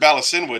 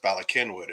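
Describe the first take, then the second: First: The middle consonant is a soft S sound. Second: The middle consonant is a hard K sound. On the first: The speaker is not from that town. The speaker calls it wrong. "If you pronounce it Ballasinwood" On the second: This is how the locals say it. The speaker calls it right. "it's pronounced Ballakinwood"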